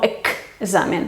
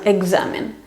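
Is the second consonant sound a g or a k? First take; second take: k; g. First: It has a voiceless k sound before z. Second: It has a voiced g sound before z. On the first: The speaker calls it wrong. "no examen" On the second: The speaker calls it right. "la k se tiene que hacer sonora, va a ser como g"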